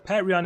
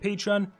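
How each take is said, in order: First: The first syllable sounds like the word pat. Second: The first syllable does not sound like pat. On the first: "the name would include Pat. So Patreon is what I call him" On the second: "Some people say Patreon"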